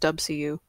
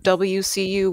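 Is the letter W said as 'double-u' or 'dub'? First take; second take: dub; double-u. First: The W is shortened to 'dub'. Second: The W is said in full as 'double-u'. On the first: "we pronounced it as WCU" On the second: "instead of WCU"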